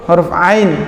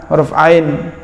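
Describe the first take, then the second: No difference in how they are said.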